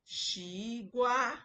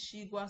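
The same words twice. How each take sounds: First: The pitch moves instead of staying level. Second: The pitch stays level and straight. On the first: The speaker calls it wrong. "not Shigwa or Shigwa" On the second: The speaker calls it right. "it's a straight tone"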